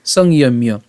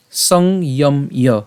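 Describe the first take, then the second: First: "সংযম্য" joined without gaps; "সংযম্য" in one connected piece; said as one word. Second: "সংযম্য" very slowly, song, yom, yo; "সংযম্য" piece by piece for a learner; broken into syllables. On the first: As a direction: run "সংযম্য" together as song-yom-yo. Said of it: "একসাথে উচ্চারণ করব". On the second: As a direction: split "সংযম্য" with a gap after each part. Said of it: "এটা আমরা যদিও ভেঙেছি". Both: Shown as a demonstration.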